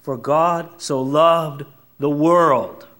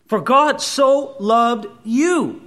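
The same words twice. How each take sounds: First: "For God so loved the world." very slow, landing on "world"; stress on world. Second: "For God so loved you." very slow, higher, landing on "you"; stress on you. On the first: Preacher restoring the verse's full scope, slow, weighted. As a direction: savor each word, open wide on "world". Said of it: "God made it as wide as he could". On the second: Preacher personalizing the verse for each listener, slow stress on you. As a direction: draw it out and hit "you". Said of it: "You're the reason". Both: Shown as a demonstration.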